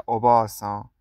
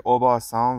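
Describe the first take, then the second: First: اوباسان with the a after ب held long: o-baa-san; long vowel. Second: اوباسان with a short, clipped a after ب: o-ba-san; short vowel. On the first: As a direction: stretch the vowel in اوباسان to double length. (اوباسان با مصوت کشیده) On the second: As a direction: say اوباسان quickly, no vowel held. (اوباسان با مصوت کوتاه) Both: Shown as a demonstration.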